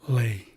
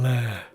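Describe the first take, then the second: First: The vowel is a long 'ay' sound. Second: The vowel is a short 'eh' sound. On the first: The speaker calls it wrong. "not lay" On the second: The speaker calls it right. "I'm saying le"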